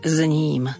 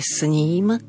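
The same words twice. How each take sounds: First: The first word is pronounced with z. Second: The first word is pronounced with s. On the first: The speaker calls it wrong. "V niektorých regiónoch je zvykom vyslovovať" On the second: The speaker calls it right. "preto musíme vysloviť s"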